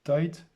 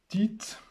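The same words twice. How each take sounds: First: Tight said the English way, rhyming with night; English pronunciation. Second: Tite read the French way, as teet. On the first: Reading the card name to viewers, Tight as English tait. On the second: Reading the card name to viewers, Tite in French sounds. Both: Shown as a demonstration. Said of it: "Excusez mon accent".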